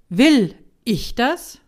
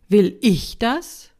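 First: The stress is on the word "will". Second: The stress is on the word "ich". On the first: It asks how much you really want it. "Das erste" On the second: It asks whether you want it for yourself. "die Frage mit der zweiten Betonung"

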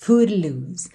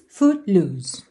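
First: The T is a quick light tongue tap. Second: The T is held silently without release. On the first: "chegou a fazer assim uma vibraçãozinha da língua no céu da boca" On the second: "aquela consoante oclusiva que não aparece"

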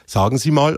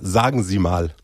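First: The A is dark and the S unvoiced. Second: The A is bright and the S voiced.

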